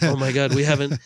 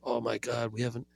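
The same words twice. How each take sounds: First: It is said in a put-on French accent. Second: It is said in the speaker's plain accent.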